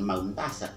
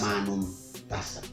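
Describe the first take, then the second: First: Three consonants run together before tasa. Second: A vowel separates the consonants before tasa. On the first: The speaker calls it wrong. "Bukan maun tasa" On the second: The speaker calls it right. "mesti minta bantuan pada huruf hidup"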